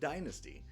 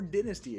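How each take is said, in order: First: It is said in an American accent. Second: It is said in an English accent.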